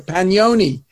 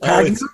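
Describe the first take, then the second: First: The name is pronounced the Italian way. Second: The name is pronounced the English way. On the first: The speaker calls it right. "you had changed the pronunciation to Pagnoni" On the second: The speaker calls it wrong. "defacing your beautiful Italian name with Pagnoni"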